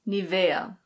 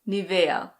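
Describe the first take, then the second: First: It is said with a German pronunciation. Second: It is said with a German pronunciation.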